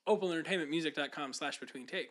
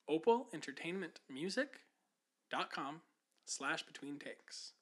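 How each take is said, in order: First: It is said at a quicker pace. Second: It is said at a slower pace.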